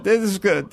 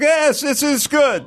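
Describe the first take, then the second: First: Said in the usual way. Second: High slow drawn out "Yes"; apathetic accent. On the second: Retold or imitated. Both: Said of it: "the apathetic Hispanic".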